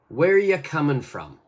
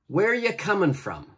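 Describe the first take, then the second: First: 'Are you' blends together and the final G drops. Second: The same.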